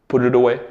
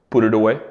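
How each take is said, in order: No difference in how they are said.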